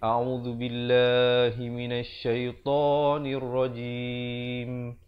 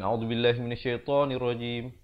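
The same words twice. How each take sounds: First: The marked vowels are held for two counts. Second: The marked vowels are cut short. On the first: The speaker calls it right. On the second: The speaker calls it wrong. "Bukan ... kita dah langgar harakat"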